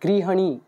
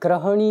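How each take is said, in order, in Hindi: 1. पहला अक्षर 'gri' की तरह बोला जाता है। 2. पहला अक्षर 'gra' की तरह बोला जाता है। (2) "ये ग्रहणी नहीं है"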